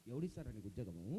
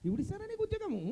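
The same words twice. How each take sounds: First: Very low, soft scornful refusal; low dismissive mutter. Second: High-pitched incredulous question; high exasperated refusal. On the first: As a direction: brush him off under your breath. Host turns down the job request. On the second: Host repeats the refusal, exasperated. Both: Acted.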